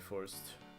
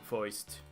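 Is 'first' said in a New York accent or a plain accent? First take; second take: plain; New York. First: It is said in a plain, ordinary accent. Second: It is said in a New York accent.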